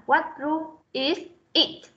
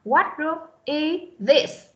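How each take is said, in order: First: IS and IT said as two separate words; unlinked, wrong way. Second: IS THIS joined into one run; linked sounds. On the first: Teacher showing students what not to say, IS IT unlinked. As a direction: break the link between IS and IT. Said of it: "chứ không phải là". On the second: Teacher showing students the linked reading, IS THIS joined. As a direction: run the end of IS straight into THIS. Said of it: "nối âm thì chúng ta sẽ đọc là". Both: Shown as a demonstration.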